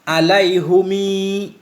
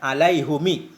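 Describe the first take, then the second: First: The final vowel is lengthened. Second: The final vowel is kept short.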